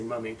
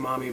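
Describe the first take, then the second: First: It is said with a British vowel. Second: It is said with an American vowel. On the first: "there they would say mummy" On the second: "We would say mommy"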